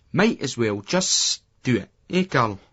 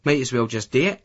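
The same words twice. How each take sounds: First: Slow, with "just" stretched like a long whisper; long drawn-out just. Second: Said in the usual way. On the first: A narrator's reading. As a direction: drag out "just" and hold it. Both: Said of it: "He makes the just seem like a long whisper".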